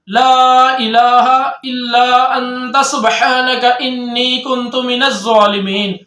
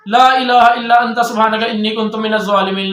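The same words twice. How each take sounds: First: It is recited at a normal pace. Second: It is recited fast.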